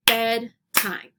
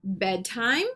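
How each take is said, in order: First: BED, TIME, one clap's beat each; clapped syllables. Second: Said in the usual way. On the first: Shown as a demonstration. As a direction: break "bedtime" into two separate beats. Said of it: "clap out the word parts". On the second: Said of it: "I'll say the word".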